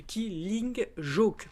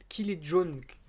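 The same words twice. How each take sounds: First: Mock Italian accent. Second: "Killing Joke" rushed and garbled as "kili jon"; botched name. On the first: Correcting the band name in a mock Italian accent. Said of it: "je fais cet accent italien de merde". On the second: Stumbling over the band name for viewers. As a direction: trip over "Killing Joke", swallowing the ending. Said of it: "pardon, excusez-moi". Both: Shown as a demonstration.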